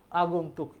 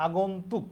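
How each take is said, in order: Both takes have the same delivery.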